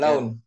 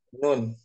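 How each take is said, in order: First: The vowel is the diphthong 'au'. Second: The vowel is a long 'u'. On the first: The speaker calls it wrong. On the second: The speaker calls it right.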